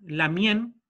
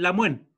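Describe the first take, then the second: First: The middle has a nasal sound between n and y. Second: The middle has a 'w' glide, not nasal. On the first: "es como una pronunciación entre una N y una Y, es como nasal" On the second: "algunas comunidades dicen la muen, que no está errado"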